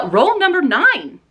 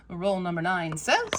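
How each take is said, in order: First: Slow, high, louder call-out; drawn-out announcer; announcer roll call. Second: Said in the usual way. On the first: Real, not acted. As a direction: call it like a game show host.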